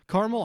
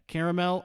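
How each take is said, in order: First: Caramel as CAR-mul; short pronunciation. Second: Caramel as CARE-uh-mel; higher, three-syllable Caramel; full pronunciation. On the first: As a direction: squash Caramel into two syllables. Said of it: "good stable stack". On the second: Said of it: "This is falling anytime". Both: Shown as a demonstration.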